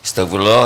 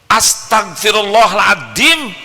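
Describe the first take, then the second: First: It is said flatly, like a routine. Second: It is said with annoyed, angry emotion.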